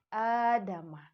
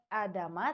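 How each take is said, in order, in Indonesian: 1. Vokal pertama dibaca panjang. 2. Vokal pertama dibaca pendek. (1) "tapi Adama" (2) "bukan Adama"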